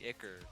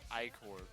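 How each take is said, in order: First: It starts like 'ick' with a short ending. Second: It sounds like 'eye' followed by 'core'. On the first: This is how the speaker prefers to say it. "I feel like it should just be Icker" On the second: This is the dictionary pronunciation. "it's pronounced Icor ... It sounds like it's the core of an eye"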